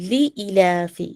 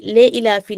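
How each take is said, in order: First: ली इलाफी opening on "lee"; correct kasra vowel. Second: ले इलाफी opening on "lay"; wrong kasra vowel. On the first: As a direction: start ली इलाफी with a thin "ee". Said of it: "ले इलाफी नहीं, ली इलाफी". (ली इलाफी, बारीक ई से शुरू) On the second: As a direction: start ले इलाफी with "e" for "i". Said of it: "ले इलाफी नहीं". (ले इलाफी, ए की आवाज़ से शुरू) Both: Shown as a demonstration.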